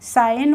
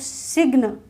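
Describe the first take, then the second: First: The g is not pronounced. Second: The g is pronounced. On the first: The speaker calls it right. "साइन होता है" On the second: The speaker calls it wrong. "सिग्न तो नहीं होता है"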